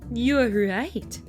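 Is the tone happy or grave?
grave. It is said in a grave tone.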